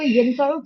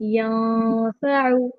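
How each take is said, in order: First: The n sound is pronounced fully and clearly. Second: The n sound is hidden into a nasal sound. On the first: "अभी तो आप इसको यनफाउ पढ़ सकते हो" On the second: "इक्फा के साथ ही पढ़ना है. नून को आवाज को यहाँ पर छुपाना होगा"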